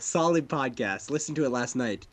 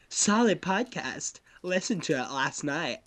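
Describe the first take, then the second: First: It is read in a smug, douchey put-on voice. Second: It is read in a flamboyant, stereotyped put-on voice. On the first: "You make him sound like such a douche" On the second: "I'm gonna go back and make him sound like a homosexual now"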